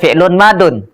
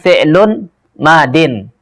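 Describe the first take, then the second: First: The second word ends with the sound -un. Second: The second word ends with the sound -in. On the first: The speaker calls it wrong. "Jangan baca fi'lun madun" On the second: The speaker calls it right. "Bacanya itu adalah fi'lun madin"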